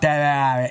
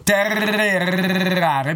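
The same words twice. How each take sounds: First: The r is a soft, weak r. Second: The r is a strong, rolled r. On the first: "perché io non ho la R moscia, perché sennò direi" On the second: "perché la mia R è arrotata, la dico con la gola"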